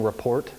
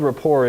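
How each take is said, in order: First: The final T is pronounced. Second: The final T is silent. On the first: The speaker calls it wrong. "that's how I said it out loud until it was pointed out" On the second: The speaker calls it right. "it's a silent T"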